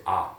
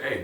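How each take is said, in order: First: Spanish "A" said as an open ah. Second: English "A" said as the letter name ei. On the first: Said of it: "but in Spanish, you're gonna say A". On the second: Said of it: "Well, in English, you do say A". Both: Shown as a demonstration.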